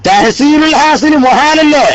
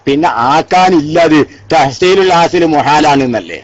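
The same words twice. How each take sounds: First: തഹസീലുൽ hassle മുഹാലല്ലേ said higher and slowly, hassle stressed; drawn-out scholarly stress on hassle; slow emphatic repeat. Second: Said in the usual way. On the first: Shown as a demonstration. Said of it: "repeated with emphasis".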